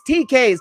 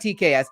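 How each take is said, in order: First: The S is joined onto the K sound. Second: The S is spelled out as its own letter. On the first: The speaker calls it right. "That's how you say it" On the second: The speaker calls it wrong. "It's not T K S"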